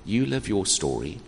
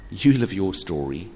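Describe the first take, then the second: No difference in how they are said.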